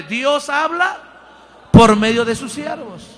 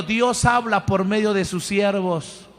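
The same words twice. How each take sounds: First: The repeat pushed out loud, with a punch on por; a loud preacher's call-and-response line; louder. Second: Said in the usual way. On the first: Shown as a demonstration. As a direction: proclaim it loud to the congregation. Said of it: "más fuerte". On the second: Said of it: "¿Lo puede repetir conmigo?".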